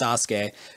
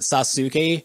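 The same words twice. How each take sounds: First: The vowel after the first s is dropped. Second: The vowel after the first s is clearly voiced. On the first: The speaker calls it right. "it's Sasuke just to get rid of that that you know that break" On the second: The speaker calls it wrong. "isn't Sasuke or anything like that"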